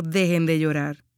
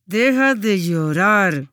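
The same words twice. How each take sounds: First: Said in the usual way. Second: Slow, louder, through gritted teeth; a fed-up parent in the toy aisle bites out "Deja de llorar" slowly; stern parent. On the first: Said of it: "Eso no es lo que Jesús quiso decir". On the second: Retold or imitated. Preacher imitating a parent scolding a child at the supermarket, slow and through gritted teeth. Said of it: "un padre con los dientes apretados".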